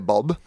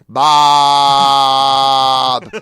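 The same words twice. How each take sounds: First: The vowel is short and clipped. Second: The vowel is long and drawn out. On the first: "like I say Bob" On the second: "You say Bob like this, apparently"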